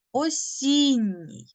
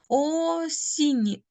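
First: «Осінній» slow, stress on the second syllable. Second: «Осінній» slow, first O drawn toward U. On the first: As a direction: stretch «Осінній», leaning on the І. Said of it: "наголос падає на голосний І". (повільно, з наголосом на «і» в «Осінній») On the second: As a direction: draw out «Осінній», O close to U. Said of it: "О з наближенням У". («Осінній» повільно, О з наближенням до У) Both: Shown as a demonstration.

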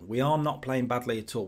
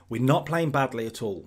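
First: ARE said in full and emphasised; stress on ARE. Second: Said in the usual way. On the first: Real, not acted. Manager reassuring himself about his team, stress on "are". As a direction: lean on "are" to insist. Insists, uncontracting the verb.

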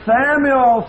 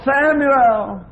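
First: Loud, high call from above; voice of God calling. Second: Second loud, high call, more urgent; voice of God calling. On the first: God calling little Samuel from the night. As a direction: call the boy's name like God waking him. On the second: God calling Samuel a second time in the night. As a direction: call him again, ringing out. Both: A narrator's reading. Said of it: "And the voice said".

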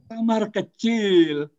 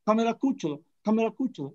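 First: "kamar kecil" said slowly, a clear a in kamar and e in kecil; correct kamar kecil. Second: "kamera kucel" with an extra e in kamera and u for e in kucel; learner's kamera kucel. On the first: Shown as a demonstration. Lecturer shows students the correct slow "kamar kecil". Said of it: "Kita kan tidak kesulitan mengatakan kamar kecil". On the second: Retold or imitated. Lecturer mimics an American learner's "kamera kucel". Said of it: "orang Amerika baru belajar mengatakan kamera kucel".

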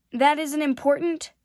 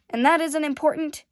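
First: Indignant, louder rising question; a boy's upset, rising protest. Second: Louder, higher hurt question; a boy close to bursting into sobs; impassioned challenge. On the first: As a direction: fling the question back, hurt. Prince upset, face turning red. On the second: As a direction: throw it at him one last time. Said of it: "His face turned red now". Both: Acted.

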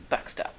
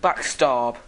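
First: Said in the usual way. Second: "Backstab!" shouted louder with a falling finish; gleeful shout. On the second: Real, not acted. Spy announcing his attack to the enemy, "Backstab!" shouted. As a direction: bark out "Backstab!" triumphantly.

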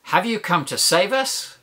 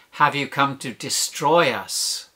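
First: Higher-pitched plea with a rising question; lifted, questioning cry ending upward; hopeful cry. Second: Slow, falling accusation; slow, measured mock outcry; demon's accusing cry. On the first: Acted. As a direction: ask it as a cry for rescue. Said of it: "Imagine the man crying". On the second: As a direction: draw it out as an accusation, falling at the end. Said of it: "the demon makes him cry out".

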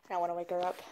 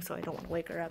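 First: Said in the usual way. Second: Soft whisper so the dog sleeps on. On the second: Real, not acted. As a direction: hush it so nobody wakes. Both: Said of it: "She's currently sleeping".

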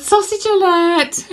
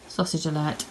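First: High, slow giggly sausage alert; laughing. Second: Said in the usual way. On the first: Real, not acted. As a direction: squeak it out through laughter. Giggling repeat of sister's joke.

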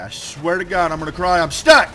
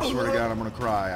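First: Building to a loud, high shout; mounting frustration, ending in a yell; exasperated outburst. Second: Said in the usual way. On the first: Real, not acted. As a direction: raise pitch and volume as frustration boils over. Frustration escalates, stuck in game.

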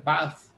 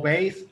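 First: "bas" with an open "ah"; "bas" with a Spanish a vowel; alternative pronunciation. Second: "base" said as "beys"; "base" rhyming with "face"; variant pronunciation. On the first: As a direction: say "bas" like "bahs". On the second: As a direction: say "base" with an "ay" vowel. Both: Shown as a demonstration. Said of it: "lo pronuncian bas".

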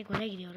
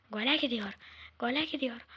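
First: Said in the usual way. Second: Gole called loud, falling; rising excitement as the attack builds; play-by-play shout of gole gidiyor; excited commentary. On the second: Real, not acted. Commentating his own game.

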